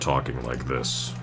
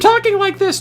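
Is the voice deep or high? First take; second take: deep; high. First: The voice is low and deep. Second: The voice is high and boyish. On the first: This is how one talks after growing up. "to talking like this" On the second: This is how one talked before growing up. "you go from talking like this"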